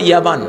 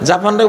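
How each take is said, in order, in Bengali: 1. শব্দটি Y দিয়ে শুরু হয় এবং এতে B আছে। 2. শব্দটি J দিয়ে শুরু হয় এবং এতে P আছে।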